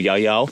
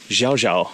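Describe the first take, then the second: First: The name begins with a 'y' sound. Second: The name begins with a 'sh' sound. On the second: "in the Argentine Spanish"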